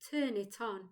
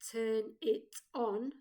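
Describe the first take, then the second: First: The words run together without breaks. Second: Each word is said separately. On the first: The speaker calls it right. "We connect the words together so they sound like" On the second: The speaker calls it wrong. "we don't say turn it on separately"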